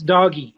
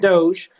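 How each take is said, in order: First: It is said as two syllables, like 'doggy'. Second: It is said as one syllable, like 'dohj'. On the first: The speaker calls it right. "but it's doggy" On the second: The speaker calls it wrong. "the correct way to pronounce DOGE isn't"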